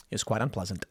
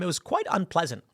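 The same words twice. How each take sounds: First: Much softer and lower, deadpan; muttered wry repeat. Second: Said in the usual way. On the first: Shown as a demonstration. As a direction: drop it to a dry understated aside.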